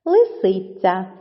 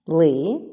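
First: Said in the usual way. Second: Long pauses between syllables of "Лисиця": Ли... си... ця; split into syllables. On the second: Shown as a demonstration. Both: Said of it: "має три склади".

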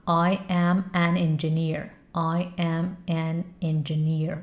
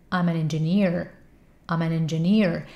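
First: Slow full-form practice; first say it slowly, word by word. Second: Quicker contracted practice; faster, contracted. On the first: Teacher showing the slow first practice step. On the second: Teacher showing the faster contracted step. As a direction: speed it up and contract I'm. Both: Shown as a demonstration. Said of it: "بعد تندترش کن".

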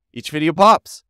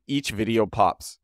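First: "pops" said higher and louder; emphatic repeat. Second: Said in the usual way. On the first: Real, not acted. Host repeats how well the videos do, emphatic repeat. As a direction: punch "Each video pops" with raised pitch and volume.

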